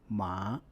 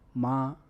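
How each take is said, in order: First: The pitch rises from mid to high. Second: The pitch stays high and level throughout. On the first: "The second tone is a rising tone" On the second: "The first tone is a high flat sustained tone"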